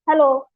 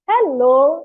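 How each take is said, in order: First: It sounds angry and unwilling. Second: It sounds interested and friendly.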